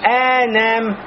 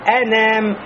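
First: The first vowel is drawn out long. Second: The first vowel is kept short. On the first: The speaker calls it wrong. "Я не говорю эн-ам" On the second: The speaker calls it right. "Не тянется"

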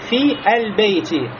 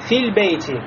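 First: The article's initial vowel is pronounced separately. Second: The article's initial vowel is dropped and linked. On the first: The speaker calls it wrong. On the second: The speaker calls it right.

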